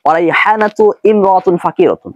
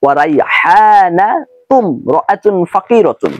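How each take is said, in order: First: রাইহানাতু cut off, then ইমরাতুন said separately with its alif sounded; wrong pronunciation. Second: Slow, রাইহানাতুম linked straight into রাআতুন with no alif sound; correct pronunciation. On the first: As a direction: demo of the mistake, saying ইমরাতুন as a separate word. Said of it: "আমি কিন্তু এভাবে বলিনি যে". (ভুল উচ্চারণ: রাইহানাতু আলাদা, তারপর ইমরাতুন আলিফসহ) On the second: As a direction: model the right way, slow, রাইহানাতুম রাআতুন joined. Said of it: "আমি উচ্চারণটা করেছি এভাবে যে". (সঠিক উচ্চারণ: ধীরে, রাইহানাতুম রাআতুন জুড়ে) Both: Shown as a demonstration.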